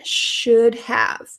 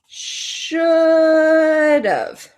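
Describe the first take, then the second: First: Both words are said separately and in full. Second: The words blend, ending in a 'v' sound.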